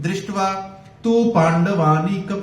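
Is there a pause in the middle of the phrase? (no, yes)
yes. The phrase is broken by a pause midway. The speaker calls it wrong. "अब बीच में रुक नहीं सकते। ... ऐसे नहीं बोल सकते हैं"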